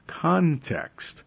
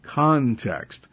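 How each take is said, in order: First: Context, said high and hard with a falling end; emphasized word. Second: Second CONTEXT, calmer falling stress; repeated emphasis. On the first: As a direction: lean on context, the first time raised high. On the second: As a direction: repeat context, less raised, still firm. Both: Shown as a demonstration. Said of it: "I can't emphasize the word enough".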